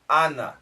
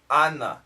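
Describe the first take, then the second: Both takes have the same delivery.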